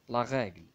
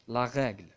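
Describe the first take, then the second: The two takes are said the same way.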